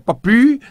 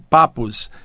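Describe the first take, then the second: First: The name ends on a vowel, without s. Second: The name ends with a clear s sound. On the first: This is the original French way to say it. The speaker calls it right. "a pronúncia certa é Papi, aquela expressão francesa" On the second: This is how people in Brazil usually say it. The speaker calls it wrong. "que todo mundo chama aqui no Brasil de Papus"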